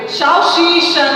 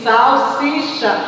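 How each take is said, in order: First: Salsicha said as "chauchicha" with sh sounds; wrong pronunciation. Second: Salsicha with clear s sounds; correct pronunciation. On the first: Teacher showing the class the wrong salsicha. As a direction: Salsicha with sh instead of s. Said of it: "não se diz". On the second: Teacher giving the class the right salsicha. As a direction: salsicha said with plain s. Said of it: "se diz salsicha". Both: Shown as a demonstration.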